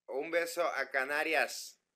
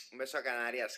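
First: Mock Castilian accent, slow and louder; Spanish accent. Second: Said in the usual way. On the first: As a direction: greet the Canaries with a put-on Spanish accent. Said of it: "¿Qué tal el acento español". (acento español de imitación, lento y fuerte)

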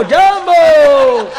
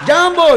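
First: જાંબો stretched very slow, high and loud with a laugh; long drawn Jambo. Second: જાંબો shouted short, high and loud with a laugh; short Jambo shout. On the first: Mimicking an African greeting, drawn-out loud જાંબો. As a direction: draw જાંબો out slowly. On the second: Mimicking an African greeting, short loud જાંબો. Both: Retold or imitated. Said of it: "આફ્રિકાના આવેલા".

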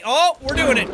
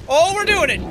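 First: Said in the usual way. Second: "Oh, we're doing it." said louder and brighter; getting excited as it works; growing thrill; rising excitement. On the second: Real, not acted. Creature starts climbing.

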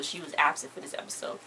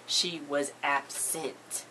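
First: Said in the usual way. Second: ABSENT stretched out slowly in separate syllables; slow, deliberate "ab-sent" for effect; drawn-out repetition. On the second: Real, not acted. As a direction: repeat it very slowly, spacing out "absent". Repeats it for effect.

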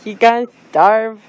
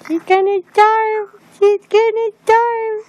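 First: Said in the usual way. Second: Put-on much higher, playful baby-talk lilt; high mock-dramatic wail; high teasing singsong. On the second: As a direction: tease her in a high singsong. Repeated teasing line, high.

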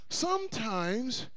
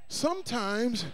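No difference in how they are said.

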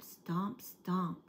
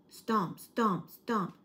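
First: Said in the usual way. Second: Loud, weighty stomping footsteps; heavy stomps. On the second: A narrator's reading. Narrator booming footsteps as something approaches, loud. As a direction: boom out each stomp like a giant's step.

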